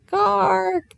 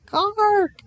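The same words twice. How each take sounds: First: High, pressing croak; a rook calling more insistently; louder rook caw. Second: A gentle rook calling for attention; gentle rook caw. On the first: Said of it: "said the rook again louder". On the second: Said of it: "it said very gently for a rook". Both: A narrator's reading.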